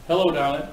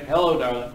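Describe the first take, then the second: First: Drawled Hello, darling with a laugh. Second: Stretched vocal cords. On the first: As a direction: croon the greeting lightly as a demo. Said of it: "And say". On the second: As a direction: sing out the greeting with an open throat. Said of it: "Stretch those vocal cords and say". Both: Shown as a demonstration.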